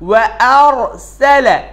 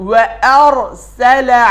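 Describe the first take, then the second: The two takes are said the same way.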